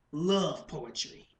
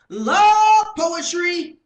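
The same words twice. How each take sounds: First: Slow, measured punchline; restrained poetic punchline, no shouting; spoken-word performance. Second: Very high, very loud, drawn-out yell; full-force slam-poetry shout; shouted poetry punchline. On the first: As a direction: let it drop slowly and deliberately. First take of the poem's hook. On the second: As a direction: bellow it slowly in theatrical outrage. Second, shouted take of the hook. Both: Acted.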